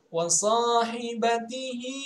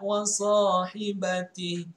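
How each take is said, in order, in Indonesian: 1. Kata ini berakhir dengan suku kata -hi. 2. Kata ini berakhir tanpa suku kata -hi.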